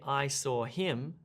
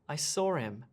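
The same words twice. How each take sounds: First: The h sound in him is clearly pronounced. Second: The h is dropped, linking with an r-like sound. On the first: The speaker calls it wrong. "I don't say" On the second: The speaker calls it right. "it almost sounds like a R sound"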